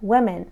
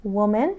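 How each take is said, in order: First: Women with "wi" first, falling tune; women, unrounded first vowel, falling; plural vowel contrast. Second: Woman with rounded "wo", rising tune; Woman, rounded first vowel, left rising; singular vowel contrast. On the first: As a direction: show the changed vowel in women, "WI-men". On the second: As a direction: show the o in Woman, "WO-men", rising. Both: Shown as a demonstration.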